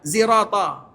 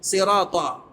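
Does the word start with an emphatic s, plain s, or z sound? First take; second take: z; emphatic s. First: The word begins with a z sound. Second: The word begins with an emphatic, heavy s sound. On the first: "Ada mereka baca huruf za" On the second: "Huruf sad yang biasa kita sebutkan"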